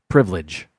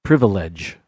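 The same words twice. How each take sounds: First: "Privilege" in two syllables, priv-lidge; "Privilege" said as privlidge. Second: "Privilege" with all three syllables, priv-i-lege; "Privilege" as priv-uh-lidge. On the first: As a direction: drop the second i in "Privilege". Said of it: "Two syllables". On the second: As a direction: sound the second i in "Privilege". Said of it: "I don't pronounce that second I either". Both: Shown as a demonstration.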